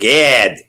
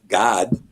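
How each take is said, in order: First: The name is pronounced the American way. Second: The name is pronounced a non-American way. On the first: The speaker calls it wrong. "like an American would say" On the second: The speaker calls it right. "it's not Gad, but God"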